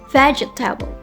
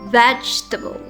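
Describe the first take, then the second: First: The word is said with four syllables. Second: The word is said with three syllables. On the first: The speaker calls it wrong. "With four syllables" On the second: The speaker calls it right. "Vegetable only has three syllables"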